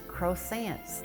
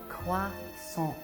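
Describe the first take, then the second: First: It is said with an American pronunciation. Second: It is said with a French pronunciation. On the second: "the proper pronunciation, the French way"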